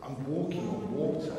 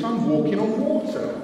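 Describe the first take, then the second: First: "I'm walking on water" softer, stunned and scared; dawning fear. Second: "I'm walking on water" higher and louder, delighted; gleeful wonder. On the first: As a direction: breathe "walking" out as the fear sets in. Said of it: "turns to panic and fear". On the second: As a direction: say "water" with a rising, amazed lift. Peter thrilled on the water. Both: Retold or imitated.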